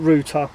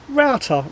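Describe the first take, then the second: First: The vowel sounds like the one in 'root'. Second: The vowel sounds like the one in 'out'. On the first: It sounds like a crude slang word. The speaker calls it wrong. "rather than router" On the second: It avoids sounding like a crude slang word. The speaker calls it right. "I prefer to use the word router"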